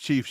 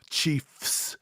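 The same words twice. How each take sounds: First: The word is said fast with a short f. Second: The word is said with a long, held f. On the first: "you'll say it fast" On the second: "pause on the F"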